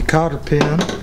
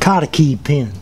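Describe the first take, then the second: First: It is said in the speaker's ordinary pronunciation. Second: It is said in an imitated Mississippi pronunciation.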